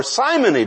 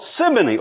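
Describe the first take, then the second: First: "simony" with a long i, like Simon. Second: "simony" with a short i, as in "sim". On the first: Preacher offering the pronunciation after Simon's name, "simony" with long i. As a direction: say "simony" starting like "sigh". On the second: Preacher offering one pronunciation of the sin's name, "simony" with short i. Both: Shown as a demonstration. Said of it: "depending on how you want to pronounce it".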